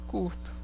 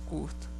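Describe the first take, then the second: No difference in how they are said.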